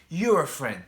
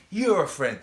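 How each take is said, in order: Both takes have the same delivery.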